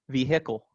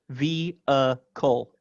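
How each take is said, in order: First: The H sound in the middle is heard. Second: The H sound in the middle is silent. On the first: "potentially acceptable um, pronunciation" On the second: "I don't pronounce it with an H"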